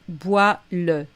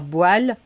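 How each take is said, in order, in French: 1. Le e final de « le » est prononcé. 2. Le e final de « le » est muet. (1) "mais bois-le" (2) "on ne va pas dire boile"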